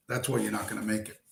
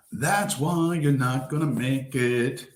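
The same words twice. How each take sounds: First: Said in the usual way. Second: Half the speed, each word spaced out; slow, drawn-out repeat. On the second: Real, not acted. Telling his viewers they won't make it, slowly. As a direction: let it sink in, slowly.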